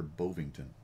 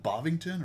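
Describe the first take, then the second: First: "Bovington" with first syllable like "bove"; long-O pronunciation. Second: "Bovington" with first syllable like "bahv"; short-O pronunciation. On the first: Unsure host offers the other option, "Bovington" starting "BOHV". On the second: Unsure host tries a town's name, "Bovington" starting "BAHV". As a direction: say "Bovington" opening with an open "ah". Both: Shown as a demonstration. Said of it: "is it Bovington or Bovington".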